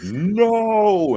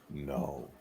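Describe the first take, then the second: First: The word is said loudly and forcefully. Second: The word is said quietly and softly. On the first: "all of a sudden he's like" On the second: "you just hear him quietly go"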